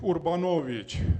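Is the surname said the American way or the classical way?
classical. The surname is said in its classical original pronunciation. This is the name's original pronunciation. "this is classical pronunciation of my name"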